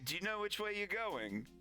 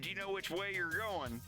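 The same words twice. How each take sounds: First: The question has a British intonation pattern. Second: American voice with a British-like pitch movement. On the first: This is how local people there ask it. "when I was over there, it's like" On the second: The speaker partly picked up the local question pitch. "after a while, I'd be like"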